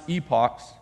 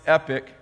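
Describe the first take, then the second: First: The word ends with an 'ock' sound. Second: The word ends with an 'ick' sound. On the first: This is how some other people say it. "which some people pronounce epochs" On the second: This is how the speaker personally says it. "I pronounce it epic"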